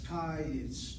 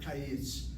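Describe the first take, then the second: First: The stress is on the first syllable. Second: The stress is on the second syllable. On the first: The speaker calls it right. "my first syllable is open with a short vowel, and that's why it is accented" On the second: The speaker calls it wrong. "not kayitz"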